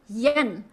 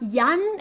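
First: The vowel is like the 'e' in yen. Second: The vowel is like the 'a' in yam. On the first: The speaker calls it right. "it's really yen" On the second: The speaker calls it wrong. "it's really not yan"

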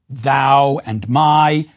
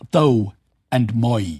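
First: The vowels have their modern diphthong sounds. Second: The vowels have older, not fully shifted sounds.

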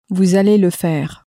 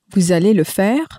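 First: The voice falls at the end. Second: The voice rises at the end.

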